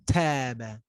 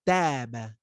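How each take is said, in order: Both takes have the same delivery.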